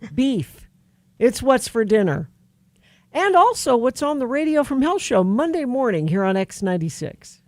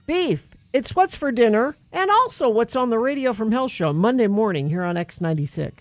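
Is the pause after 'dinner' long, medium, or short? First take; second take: long; medium. First: There is a long pause after dinner. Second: There is a moderate pause after dinner.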